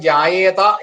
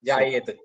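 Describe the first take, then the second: First: The word ends with a final vowel sound. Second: The word ends on a bare consonant. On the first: This is the Sanskrit reading. "ജായേത എന്നാണ് നമ്മൾ സംസ്കൃതത്തിൽ വായിക്കുക" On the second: This is the Hindi reading. "ജായേത് എന്നാണ് ഹിന്ദിയിലാണേ വായിക്കുക"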